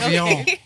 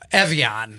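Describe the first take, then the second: First: The name starts with an 'ah' vowel, Avion. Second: The name starts with an 'eh' vowel, Evian. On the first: This is how it was said in the past. "pronouncing it with my French accent" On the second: This is how people say it now. "Evian, they're calling it now"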